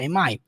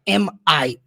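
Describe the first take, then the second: First: The two words are linked smoothly without a pause. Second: The two words are said separately with a pause. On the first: The speaker calls it right. "você junta" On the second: The speaker calls it wrong. "assim, pausadamente"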